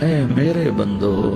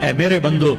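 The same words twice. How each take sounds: First: It is said tenderly, full of warmth. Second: It is said flatly, without warmth. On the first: The speaker calls it right. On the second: The speaker calls it wrong.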